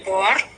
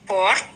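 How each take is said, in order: The two takes are said the same way.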